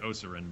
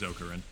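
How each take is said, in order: First: The middle consonant is a soft S sound. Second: The middle consonant is a hard K sound. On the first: The speaker calls it wrong. "If it were a C, I'd be tempted to say Osarin" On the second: The speaker calls it right. "It's a hard, hard consonant sound"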